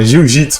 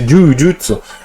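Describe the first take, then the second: First: It is said with 'jiu' and 'jitsu' sounds. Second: It is said with 'ju' sounds: jujutsu. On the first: This is how people say it locally. "que a gente fala aqui no, no Brasil" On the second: This is the original Japanese pronunciation. "é a pronúncia correta"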